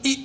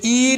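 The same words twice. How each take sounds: First: ई clipped short as the short i of ink; right short vowel. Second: ई stretched into a long ee, the wrong way; wrong long vowel. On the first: Teacher to pupils giving the right sound, short ई. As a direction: say ई short and quick, the correct way. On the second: Teacher to pupils showing the wrong sound, long ई. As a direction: say ई long and drawn out to show the mistake. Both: Shown as a demonstration. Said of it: "ये ई नहीं है".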